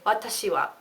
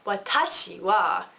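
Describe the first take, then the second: First: All syllables are said on a flat pitch. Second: One syllable is stressed with a pitch rise. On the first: The speaker calls it right. "So just keep it flat when you're talking" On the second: The speaker calls it wrong. "So you will not say watashi wa"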